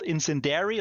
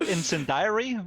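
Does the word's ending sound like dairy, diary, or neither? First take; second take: dairy; diary. First: The ending sounds like the word dairy. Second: The ending sounds like the word diary. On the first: "It's also not called incendiary like the milk" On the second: "I don't think it's called incendiary with the journal"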